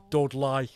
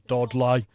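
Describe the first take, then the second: First: Dudley repeated as "Dudlaɪ" in a light Black Country accent. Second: Said in the usual way. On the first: Shown as a demonstration. Naming Black Country towns for viewers, light Black Country accent. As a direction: give the town its local Black Country sound. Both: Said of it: "It's more the Black Country".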